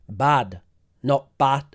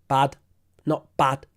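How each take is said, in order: The two takes are said the same way.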